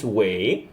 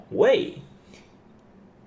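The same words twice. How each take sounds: First: 喂 said falling, wèi; falling wèi answering the phone; fourth tone wei. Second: 喂 rising high, wéi, like a question; questioning wéi on the phone; rising second tone. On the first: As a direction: drop 喂 down in the fourth tone. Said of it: "the second tone". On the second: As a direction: swing 喂 sharply upward. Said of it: "use the second tone to ask". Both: Shown as a demonstration.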